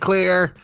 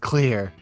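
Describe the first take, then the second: First: The word is yelled loudly. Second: The word is said flatly and quietly. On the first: The speaker calls it right. "She should have yelled it" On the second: The speaker calls it wrong. "not just been like"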